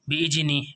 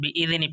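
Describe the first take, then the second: First: The middle consonant sounds like a j. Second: The middle consonant sounds like a soft dh. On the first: The speaker calls it wrong. "ऐसा नहीं पढ़ेंगे दोस्तों, इसको कभी आप जीम की आवाज़ निकालें" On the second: The speaker calls it right. "बिइज़नी पढ़ेंगे दोस्तों"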